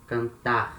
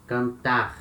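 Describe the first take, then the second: No difference in how they are said.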